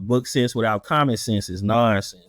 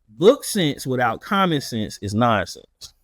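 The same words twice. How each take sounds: First: It is said in a plain, casual voice. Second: It is said in a formal, teaching voice.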